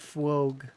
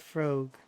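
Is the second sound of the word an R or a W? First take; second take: W; R. First: The word is said with a W sound. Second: The word is said with an R sound. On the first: The speaker calls it wrong. "my brain doesn't like the W" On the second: The speaker calls it right. "just known as frog"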